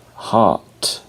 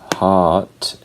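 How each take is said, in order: First: The R is silent and the vowel is lengthened. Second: The R is silent and the vowel is lengthened.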